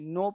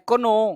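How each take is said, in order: First: The K sound is silent before the N. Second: The K sound is pronounced before the N. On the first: The speaker calls it right. "नो पढ़ते हैं। के चुप रहता है भाई।" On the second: The speaker calls it wrong. "कोनो नहीं"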